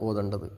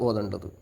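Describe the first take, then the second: The two takes are said the same way.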